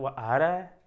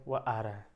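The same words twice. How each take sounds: First: It is said with a tone of surprise. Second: It is said as a plain, neutral statement. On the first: The speaker did not expect him to come. "आश्चर्य हो जाएगा" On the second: The speaker simply reports that he is coming. "समानार्थ"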